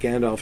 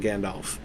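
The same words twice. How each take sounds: First: The final sound is a quick V. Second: The final sound is an F. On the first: "if you say it quickly" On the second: "when I just said it in two different ways in that one sentence"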